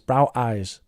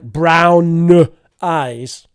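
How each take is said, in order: First: The m sound at the end of brown is missing. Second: The m sound is held long and strongly. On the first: "you really need a mm, a bit of a mm there" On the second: "It's not like brown eyes. Not necessary"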